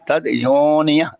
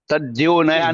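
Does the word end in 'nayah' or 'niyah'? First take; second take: niyah; nayah. First: The word ends with the syllables niyah. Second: The word ends with the syllables naya. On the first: The speaker calls it right. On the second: The speaker calls it wrong. "तद्योनया नहीं"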